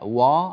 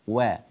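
First: The w sound is heavy and emphatic. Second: The w sound is light and thin. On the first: The speaker calls it wrong. "هكذا فخمت الواو" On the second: The speaker calls it right. "رقق الواو"

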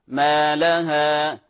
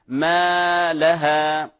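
First: The long vowel has normal length; the word stays connected. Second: The vowel is overlengthened so the word splits apart. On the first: The speaker calls it right. "فنقول وقال ما الطبيعي" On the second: The speaker calls it wrong. "لا نمد بمقدار زائد حتى تنفصل الكلمة، فلا نقول"

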